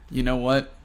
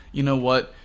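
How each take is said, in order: Both takes have the same delivery.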